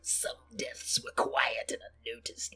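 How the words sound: It is read in a put-on voice.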